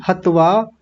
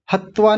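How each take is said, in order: First: "हत्वा" with one short त; correct single consonant. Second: "हत्वा" with a held double त; wrong doubled consonant. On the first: Teacher correcting students, single त in "हत्वा". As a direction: say "हत्वा" as hat-vaa. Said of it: "हत्वा नहीं". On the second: Teacher showing what to avoid, doubled त in "हत्वा". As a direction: say "हत्वा" as hat-twaa. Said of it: "नहीं". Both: Shown as a demonstration.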